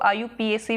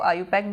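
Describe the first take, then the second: First: The acronym is said letter by letter. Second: The acronym is said as one word. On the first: "या इसको आयुपीएसी भी बोलते हैं" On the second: "या तो इसको आयुपैक बोलते हैं"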